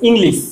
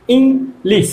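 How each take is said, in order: First: Said in the usual way. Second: ইংলিশ broken in two, ইং then লিশ; split into syllables. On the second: Shown as a demonstration. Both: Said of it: "এই যে দুভাবে উচ্চারণ করছি".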